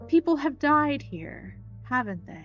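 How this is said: It is said in a mystical voice.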